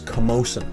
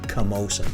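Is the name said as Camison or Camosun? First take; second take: Camosun; Camosun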